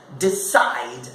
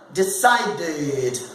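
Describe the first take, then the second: First: Low "decide", as de-cide; two syllables. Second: "decided" as de-ci-ded; three syllables. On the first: Teacher counting syllables for students, two beats. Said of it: "two syllables". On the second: Teacher demonstrating the past form, three syllables. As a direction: sound the added id ending of "decided". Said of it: "vai ter três sílabas". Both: Shown as a demonstration.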